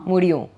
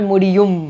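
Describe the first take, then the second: First: The final M is left open, lips not closing. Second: The final M is fully closed with the lips. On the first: The speaker calls it right. "It doesn't shut" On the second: The speaker calls it wrong. "It's not Mudiyum"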